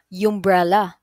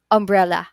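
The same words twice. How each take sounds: First: It begins with a Y sound. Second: It begins with a plain vowel sound. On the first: The speaker calls it wrong. "hindi naman pwedeng sabihin na umbrella" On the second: The speaker calls it right. "tunog vowel din siya"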